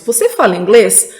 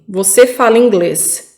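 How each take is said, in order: First: It is said with the tune of a question. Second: It is said with the tune of a statement. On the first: It asks something. "nós teríamos uma pergunta" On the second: It states a fact. "que é afirmativa"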